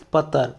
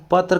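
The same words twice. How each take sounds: First: "पत्र" as pat-tar; tar for tra. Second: Said in the usual way. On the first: Shown as a demonstration. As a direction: say "पत्र" with two syllables, ending in -tar. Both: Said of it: "तर की तरह होता है".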